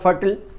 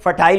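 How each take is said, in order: First: The ending sounds like a short 'til'. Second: The ending sounds like 'tile' with 'eye'. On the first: "American English में उच्चारण होगा" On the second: "British English में"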